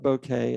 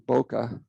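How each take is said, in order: First: The name ends with an 'ay' sound. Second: The name ends with an 'uh' sound. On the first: The speaker calls it wrong. "I call it Bouquet" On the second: The speaker calls it right. "It's the correct pronunciation of it"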